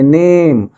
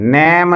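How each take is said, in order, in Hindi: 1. स्वर लंबी 'ay' ध्वनि है। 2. स्वर खुली 'eh' ध्वनि है। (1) "इसको नेम बोलेंगे" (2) "बहुत सारे बच्चे इसको नैम बोल देते हैं"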